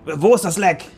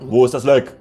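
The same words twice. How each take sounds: First: It is said in a higher voice. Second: It is said in a deeper voice.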